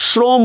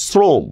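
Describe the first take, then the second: First: "শ্রম" with a hushing sh, shrom; rejected sh pronunciation. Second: "শ্রম" with a plain s, srom; dental s pronunciation. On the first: Teacher showing what is not said, "শ্রম" as shrom. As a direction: open "শ্রম" on sh as in shin. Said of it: "শ্রম বলতেছি না". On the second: Teacher showing the spoken form, "শ্রম" as srom. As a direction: open "শ্রম" on s as in Arabic sin. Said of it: "বলতেছি হচ্ছে শ্রম". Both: Shown as a demonstration.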